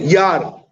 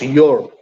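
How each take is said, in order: First: The vowel sounds like 'ah'. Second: The vowel sounds like 'or'. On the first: "He can say yar also" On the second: "the right way to pronounce your"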